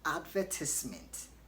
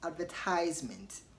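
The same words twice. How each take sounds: First: The word is said the British way. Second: The word is said the American way. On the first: "in British English they pronounce the word as" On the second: "In American English they say"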